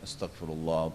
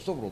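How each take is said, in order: First: It is said slowly and deliberately. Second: It is said quickly and rattled off. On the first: The words are said with full attention. The speaker calls it right. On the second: The meaning is lost and nothing connects. The speaker calls it wrong.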